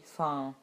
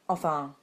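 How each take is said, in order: First: The first syllable of the word is dropped. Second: Both syllables of the word are pronounced.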